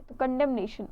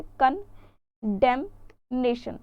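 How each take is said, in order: First: Said in the usual way. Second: कंडेमनेशन split slowly into कन-डेम-नेशन; syllable by syllable. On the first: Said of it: "तो देखिए, कंडेम". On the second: Shown as a demonstration. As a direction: break कंडेमनेशन into its pieces, very slowly. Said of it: "कैसे?". (कंडेमनेशन को धीरे-धीरे टुकड़ों में बोलना)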